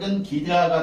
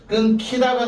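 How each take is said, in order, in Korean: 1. ㄴ 뒤의 자음은 예사 g입니다. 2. ㄴ 뒤의 자음은 거센 k입니다. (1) "됐다" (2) "돼야 되는데"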